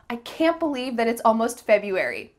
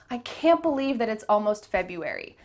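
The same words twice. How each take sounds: The two takes are said the same way.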